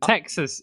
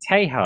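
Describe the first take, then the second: First: The name has the usual English pronunciation. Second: The name has the original Spanish pronunciation.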